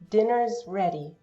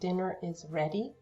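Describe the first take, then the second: First: The verb is joined to the noun. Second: The verb is a separate full syllable.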